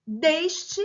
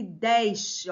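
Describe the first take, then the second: First: Slow "Deste" with a closed E, "DÊS-te". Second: Slow "deste" with an open E, "DÉS-te". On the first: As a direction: stretch "Deste" with a narrow ê. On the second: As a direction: stretch "deste" with a wide é. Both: Shown as a demonstration. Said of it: "Pronúncias diferentes".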